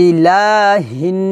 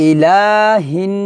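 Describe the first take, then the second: No difference in how they are said.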